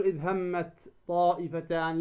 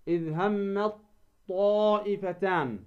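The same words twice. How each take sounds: First: "إذ همت طائفتان" with a light t released in همت; wrong unmerged ta. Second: "إذ همت طائفتان" as hammaT-Taa'ifatan, long aa; ta merged into emphatic ta. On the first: Teacher showing what not to say, ت of همت left unmerged. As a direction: keep ت of همت apart from طائفتان. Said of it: "فلا تقول". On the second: Teacher correcting the error, همت طائفتان merged on a heavy ط. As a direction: hold a doubled ط from همت into طائفتان. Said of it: "لا". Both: Shown as a demonstration.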